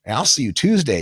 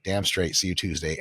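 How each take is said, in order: First: Lightly voiced client's goodbye; imitated parting promise; keen client. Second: Low, soft confirming reply; understated, confident comeback; assured trainer. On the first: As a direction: sign off like a motivated client. Client's parting words, acted. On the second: Retold or imitated. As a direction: answer the client low and cool. Trainer's reply to client, acted.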